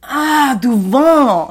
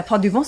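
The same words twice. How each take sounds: First: Loud, high, exaggerated French "devant"; mock a French person suddenly getting it; mock French comprehension. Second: Said in the usual way. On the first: French visitors correcting a museum worker, hammed-up realization. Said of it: "And they're like". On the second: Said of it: "and I'm like, Uh, le sac".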